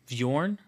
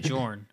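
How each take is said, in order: First: The name starts with a soft b sound. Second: The name starts without any b sound. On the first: The speaker calls it right. "that's better" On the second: The speaker calls it wrong.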